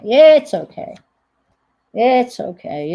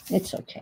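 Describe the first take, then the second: First: "It's okay" called out loud and high; loud reassurance. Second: Calm yourself down quietly; quiet reassurance. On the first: After cutting paper, she insists loudly it's fine. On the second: Talking herself down after a small cut, softly. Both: Real, not acted.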